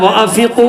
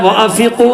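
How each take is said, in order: First: The n sound is left out entirely. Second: The n sound is left out entirely.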